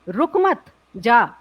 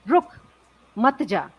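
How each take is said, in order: First: There is a pause after the second word. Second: There is a pause after the first word.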